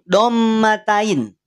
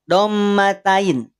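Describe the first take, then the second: No difference in how they are said.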